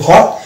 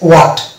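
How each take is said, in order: First: The word begins with an h sound. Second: The word begins with a w sound. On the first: "যেটা আমরা বলি হট" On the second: "British ইংলিশের ক্ষেত্রে এটা হচ্ছে ওয়াট"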